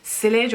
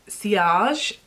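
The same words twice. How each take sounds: First: The word is pronounced the English way. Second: The word is pronounced the French way.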